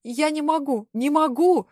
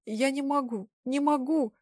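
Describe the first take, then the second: First: Desperate scream, higher and louder. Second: Mild tearful whimper, slightly higher; whimpering plea. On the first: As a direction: break down screaming the refusal. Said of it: "я закричала". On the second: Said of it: "захныкала". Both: Acted.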